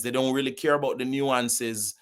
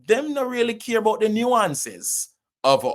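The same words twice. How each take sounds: First: Said in the usual way. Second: High-pitched Jamaican Patois complaint. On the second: Real, not acted. Actor on decision makers ignoring Caribbean nuance, Jamaican Patois. Switches into Patois, then restates in standard.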